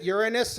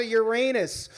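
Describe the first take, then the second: First: Uranus with stress on the first syllable; Uranus, opening syllable stressed, middle reduced; first pronunciation variant. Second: Uranus with stress on the middle syllable; Uranus with a long, stressed AY in the middle; second pronunciation variant. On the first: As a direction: say Uranus as YOOR-uh-nus. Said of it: "We discussed the giggle factor". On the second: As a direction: say Uranus as yoo-RAY-nus. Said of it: "we decided they're both appropriate". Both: Shown as a demonstration.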